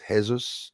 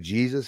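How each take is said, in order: First: The first sound is a foreign J. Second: The first sound is the English J. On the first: "sometimes in other countries it's Jesus" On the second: "we'll say Jesus here"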